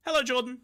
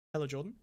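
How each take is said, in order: First: Higher, louder sing-song hello; excited greeting. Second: Said in the usual way. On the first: Real, not acted. Streamer greets Jordan again, brighter and louder. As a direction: greet him like a big welcome.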